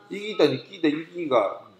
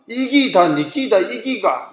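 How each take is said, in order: First: It is read flatly, just as written. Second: It is said with Gyeongsang dialect intonation. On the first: "글자 그대로 읽었을 때" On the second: "경상도 억양이 익숙한 것 같아요"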